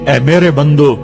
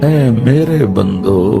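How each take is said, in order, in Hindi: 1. यह सादे, बेप्यार लहजे में कहा गया है। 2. यह नरम, कोमल लहजे में कहा गया है।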